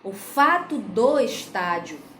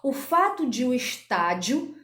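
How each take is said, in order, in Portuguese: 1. De e o se juntam numa só sílaba, do. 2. De e o são ditos como palavras separadas. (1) "A forma correta seria contrair o D com o O" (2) "nós não vamos poder dizer essa frase da forma que eu pronunciei"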